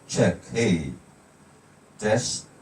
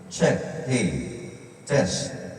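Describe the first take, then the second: First: The voice is dry with no echo. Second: The voice has an echo trailing after it. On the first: "walang echo" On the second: "May echo na"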